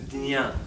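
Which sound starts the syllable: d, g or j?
d. The syllable is said as d plus nya. This is the way in some regions. "In some parts of India they say the dnya"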